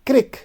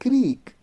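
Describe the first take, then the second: First: The vowel is short, like 'ih'. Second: The vowel is long, like 'ee'. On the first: "Northern, okay, they will say crick" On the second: "And they will say creek"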